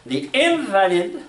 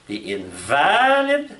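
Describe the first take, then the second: First: "invalid" with a high, slow first syllable IN; "invalid" as IN-valid, the noun for a sick person; stress on IN-valid. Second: "invalid" with a long, rising, loud VA; "invalid" as in-VAAA-lid, meaning without force; stress on in-VA-lid. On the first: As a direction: hit IN in "invalid", higher and drawn out. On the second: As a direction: stretch and lift the middle syllable of "invalid". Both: Shown as a demonstration. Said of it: "the accent can change".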